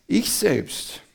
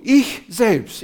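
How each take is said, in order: First: Said in the usual way. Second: "Ich" punched higher and louder; stress on ich. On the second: Shown as a demonstration. Preacher showing Paul's emphasis, stress on "Ich". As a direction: hit "Ich selbst" like a hammer on the pulpit. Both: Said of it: "das ist Betonung".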